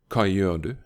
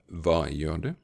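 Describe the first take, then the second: First: It is said in the speaker's local dialect. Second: It is said in standard Norwegian.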